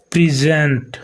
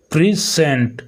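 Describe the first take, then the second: First: प्रेजेंट said with a z sound, as the noun; noun pronunciation. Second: प्रेजेंट said as pri-sent, the verb; verb pronunciation. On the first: Teacher showing accent to students, noun form of प्रेजेंट with z. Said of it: "प्रेजेंट noun हो गया". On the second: Teacher showing accent to students, verb form of प्रेजेंट with s. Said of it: "आपका verb हो गया". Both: Shown as a demonstration.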